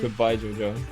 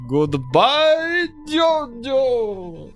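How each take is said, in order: First: It is said in a calmer, toned-down way. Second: It is said in a wildly over-the-top way. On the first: This is how it actually sounded in the episode. The speaker calls it right. "it's more he's just like" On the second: This is the embellished version as remembered and repeated. The speaker calls it wrong. "he's all like"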